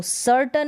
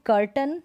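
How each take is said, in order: First: "सर्टन" starting on an s sound; wrong soft-c pronunciation. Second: "कर्टन" starting on a hard k; correct hard-c pronunciation. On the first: Teacher shows how not to read curtain, wrong soft-c pronunciation. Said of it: "नहीं पढ़ेंगे". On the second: Teacher introduces the word curtain, correct hard-c pronunciation. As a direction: say "कर्टन" with a k sound first. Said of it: "अब इसको सर्टन नहीं पढ़ेंगे". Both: Shown as a demonstration.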